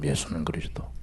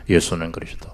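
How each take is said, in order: First: 예수는 whispered with a rise. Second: Said in the usual way. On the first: Shown as a demonstration. Preacher whispering 예수는 그리스도 reverently to the congregation. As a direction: breathe 예수는 그리스도 almost unvoiced.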